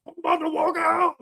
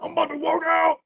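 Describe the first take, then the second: First: Much higher mock cry-shout; mock crying walkout. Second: Much higher mocking whine; mocking the walkout man. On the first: Mocking the guest who threatened to walk out, mock crying shout. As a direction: wail it like a fake tantrum. Mocks the walkout man from clip. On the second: Mocking the guest who threatened to walk out, high whine. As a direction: parody the man threatening to leave.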